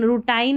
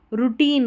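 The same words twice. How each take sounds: First: "रूटाइन" ending in "tine", rhyming with line; wrong pronunciation. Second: Put-on "रूटीन" with a long "ee", roo-TEEN; correct pronunciation. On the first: Teacher warns against the misreading, "रूटाइन" ending in tine. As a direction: say "रूटाइन" with an eye vowel. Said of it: "नहीं पढ़ना है इसको". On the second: Teacher shows the right reading, "रूटीन" with long ee. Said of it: "रूटाइन नहीं पढ़ना है". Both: Shown as a demonstration.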